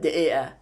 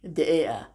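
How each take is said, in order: First: It is said in Egyptian dialect, q dropped. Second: The same.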